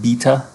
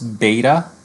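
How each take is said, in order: First: It is said with a British pronunciation. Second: It is said with an American pronunciation.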